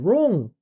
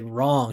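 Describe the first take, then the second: First: The vowel is small and tight, not open. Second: The vowel is open and wide, like ah. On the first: "She's saying wrong" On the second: "We usually say wrong"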